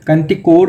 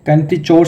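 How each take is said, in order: First: The last part is said with a hard k sound. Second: The last part is said with a ch sound. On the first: "कुछ लोग इसको kinetic कोर ऐसे pronounce करते हैं" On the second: "कुछ लोग जो हैं इसकी प्रोनाउंसिएशन काइनेटिक चोर से करते हैं"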